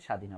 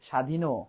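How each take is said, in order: First: The word ends cleanly on the 'n' consonant. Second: The word ends with an added 'o' vowel. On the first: The speaker calls it right. "তার মানে স্বাধীন হবে" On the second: The speaker calls it wrong. "ওকারের মতো মনে হবে"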